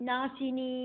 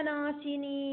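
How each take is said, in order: The two takes are said the same way.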